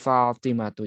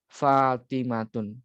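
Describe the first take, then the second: First: The name ends on a plain u vowel. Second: The name ends with an added n sound. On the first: The speaker calls it right. "Yang benar Fatimatu" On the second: The speaker calls it wrong. "enggak boleh Fatimatun. Itu salah"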